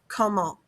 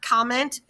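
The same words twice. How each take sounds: First: The final T sound is silent. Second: The final T sound is pronounced. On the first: The speaker calls it right. "we don't pronounce that T" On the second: The speaker calls it wrong. "It's not comment"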